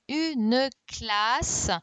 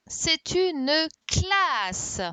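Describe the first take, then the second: First: Said in the usual way. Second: Drawn out slowly and louder, "une classe" spelled out; slow model word. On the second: Shown as a demonstration. Teacher models the answer word for pupils, slow and loud. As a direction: stretch "c'est une classe" out slowly, each sound clear. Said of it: "c'est ça".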